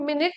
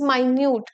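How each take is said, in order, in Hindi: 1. यह min-it जैसा सुनाई देता है, पहले स्वर में छोटी ध्वनि के साथ। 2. यह my-nyoot जैसा सुनाई देता है, दूसरे स्वर में लंबी ध्वनि के साथ। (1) "this is not मिनट" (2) "this is माइन्यूट"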